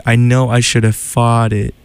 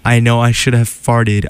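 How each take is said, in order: First: "fought it" with no r and a clear final "it"; careful r-less "fought it"; fought it, not farted. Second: Said in the usual way. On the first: Shown as a demonstration. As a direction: say "fought it" distinctly, open vowel and no r. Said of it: "it says fought". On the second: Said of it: "it sounds like farted".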